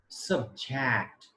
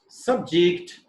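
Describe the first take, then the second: First: It carries the verb stress pattern. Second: It carries the noun stress pattern. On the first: The word is used as a verb. "is verb" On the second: The word is used as a noun. "is noun"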